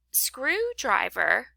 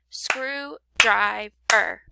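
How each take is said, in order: First: Said in the usual way. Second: "Screwdriver" slowly broken into screw, drive, er; clapped-out syllables. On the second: Shown as a demonstration. Teacher clapping out syllables for pupils, "Screwdriver" in three separated beats. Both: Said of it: "You can clap those out".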